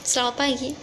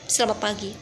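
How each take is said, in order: First: It is said in a gentle, soft way. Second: It is said in a harsh, rough way.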